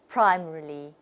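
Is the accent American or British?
British. It is said in a British accent. "the British people will say"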